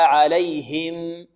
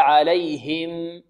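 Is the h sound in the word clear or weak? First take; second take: clear; clear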